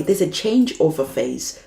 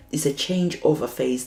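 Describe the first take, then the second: First: Louder, hitting CHANGEOVER; loud emphasis on changeover; stressed phrase. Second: Said in the usual way. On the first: Shown as a demonstration. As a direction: punch the word changeover. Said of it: "stress the key phrase". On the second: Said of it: "repeated plainly".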